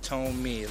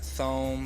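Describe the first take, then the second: First: The name sounds like 'toe' plus 'me'. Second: The name does not sound like 'toe-me'. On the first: This is how the name's owner says it. The speaker calls it right. "It's pronounced Tome, like in toe and me" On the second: This is how many people say the name. The speaker calls it wrong. "A lot of people pronounce it Thome"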